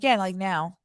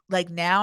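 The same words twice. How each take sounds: First: "Yeah, like now." as an even statement, no question; retold confirmation, "now" without a questioning lift; confirming. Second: "Like now?" lifting on "now" as a question; retold query, "now" turned upward. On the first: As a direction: answer "like now" evenly, closing it off. Retold firm answer to his question. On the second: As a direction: ask "Like now?" with a small rise at the end. Retold question about going to bank.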